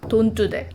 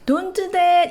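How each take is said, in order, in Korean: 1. 낮고 짧고 끊어서 말해요. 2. 부드럽고 순한 목소리로 말해요. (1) "목소리 깔아주고 짧고 굵게 끊어지게" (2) "이렇게 하면 남자애들 안 들어요"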